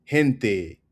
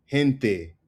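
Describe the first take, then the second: No difference in how they are said.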